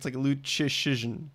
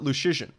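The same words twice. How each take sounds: First: The first consonant is a 'ch' sound. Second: The first consonant is not a 'ch' sound. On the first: The speaker calls it right. "the first CH is a ch sound, so it's like Luchishin" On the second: The speaker calls it wrong. "I always called it Luchishin"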